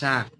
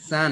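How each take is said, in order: First: The syllable begins with an sh sound. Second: The syllable begins with a plain s sound. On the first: The speaker calls it right. "বলতে হবে একটু চাপ দিয়ে শা শা" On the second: The speaker calls it wrong. "সা না"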